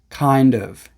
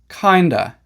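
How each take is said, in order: First: Both words are said fully and separately. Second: The two words blend into one reduced word. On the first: "the real words" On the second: "how we sometimes pronounce"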